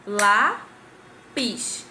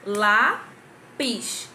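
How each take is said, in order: First: Lápis split into two loud beats, lá-pis; Lápis broken into two struck syllables; clapped syllables. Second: Lápis in two loud beats, lá-pis; Lápis counted out in two syllables; clapped syllables. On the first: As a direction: clap out lá and pis. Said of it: "Quantas separação". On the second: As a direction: clap it out with the class. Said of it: "Então, vamos lá". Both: Shown as a demonstration.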